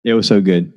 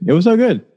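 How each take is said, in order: First: Said in the usual way. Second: Much higher, gushing delight; same words, said with a sudden high thrill; excited repeat. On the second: Real, not acted. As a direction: relive the fun with a burst. Repeated line, second take.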